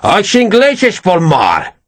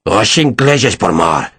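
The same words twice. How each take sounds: First: Slow, high-pitched Portuguese outburst; shout. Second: Slow, lower snarled Portuguese. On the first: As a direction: spit the words out at Perez, drawn out. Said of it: "he shouted at Perez". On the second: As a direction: growl the curse, drawn out. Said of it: "Ferragus snarled". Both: Acted.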